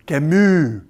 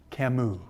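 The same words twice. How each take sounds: First: Camus with a careful French sound, stressed on the end; mock game-show French Camus; Alex Trebek's French Camus. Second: Said in the usual way. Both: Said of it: "As Alex Trebek likes to say on Jeopardy".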